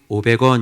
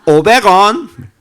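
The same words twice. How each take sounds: First: It is said in a standard Seoul accent. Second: It is said in a Korean-Chinese accent. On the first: "우리는 오백 원 이러잖아" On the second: "완전 조선족 말투가 나오더라고"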